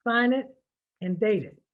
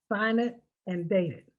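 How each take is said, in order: Both takes have the same delivery.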